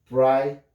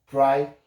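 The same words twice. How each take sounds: The two takes are said the same way.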